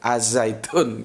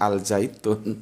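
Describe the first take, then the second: First: The article blends into the following z sound. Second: The article keeps a clear l sound. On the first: The speaker calls it right. "tapi Az-Zaitun" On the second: The speaker calls it wrong. "bukan Al-Zaitun"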